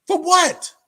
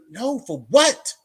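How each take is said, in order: First: High, loud FOR WHAT, falling at the end; emphatic repeated challenge. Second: Drawn-out, louder FOR WHAT lifting into a question; rising challenge. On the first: Challenging someone who brags about his past, forceful high exclamation. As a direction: hit "for" very high, then drop on "what". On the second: Challenging someone who brags about his past, incredulous rising question. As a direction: stretch "what" slowly upward, incredulous. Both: Retold or imitated.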